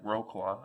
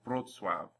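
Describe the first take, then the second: First: The letters keep their usual English sounds. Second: W sounds like V, Ł like W. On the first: The speaker calls it wrong. "If you ignore all these rules and choose to call it whatever you want" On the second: The speaker calls it right. "W's are pronounced like V's, C's are pronounced like T S's, and an L with a hash through it is pronounced like a W"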